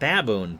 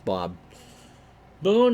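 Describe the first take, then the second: First: The name is said fast, run together. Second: The name is said slowly, two separate words. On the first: "You say that fast enough, it comes out Baboon" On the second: "but it's Bob"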